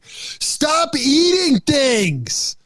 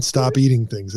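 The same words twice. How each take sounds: First: Put-on high, drawn-out kid's yell at the TV; mock yell in a high, slow child voice; son yelling at screen. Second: Said in the usual way. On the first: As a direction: imitate a worked-up son, pitched way up, stretching each word. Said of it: "my son yelling at the screen". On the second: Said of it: "he just literally yelled at the screen".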